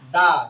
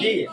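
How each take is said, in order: First: The word ends in an 'uh' vowel. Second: The word ends in an 'ee' vowel. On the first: The next word starts with a consonant. "Consonant কোন লেটারের শুরুতে যদি T H E আসে তাহলে তার উচ্চারণ হবে দা" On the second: The next word starts with a vowel. "ভাওয়াল এই পাঁচটা লেটারের কোনটার শুরুতে যদি আসে তাহলে সেটার উচ্চারণ হবে দি"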